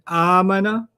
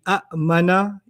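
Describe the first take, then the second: First: The word flows smoothly with no glottal catch. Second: A glottal catch breaks the middle of the word. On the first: This is the smoothed form people actually use. The speaker calls it right. "So the Arabs made it smoother" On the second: This is the literal form built from the pattern. The speaker calls it wrong. "if I did it literally ... You notice the hiccups"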